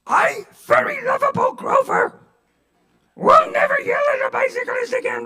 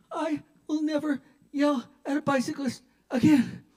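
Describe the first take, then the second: First: Very high, loud strained puppet voice; Grover. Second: High, halting mock whimper; pained forced promise. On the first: Acted. Pinned driver forced to promise, squawky puppet impression. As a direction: squawk it out like a furry Muppet. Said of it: "say it like Grover". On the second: Driver in an arm bar promising, pained whimper. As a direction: squeeze it out as if pinned.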